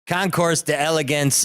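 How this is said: It is said with a Chicago accent. "that's coming from a Chicago guy, which would normally be like"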